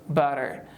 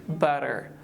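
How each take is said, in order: Both takes have the same delivery.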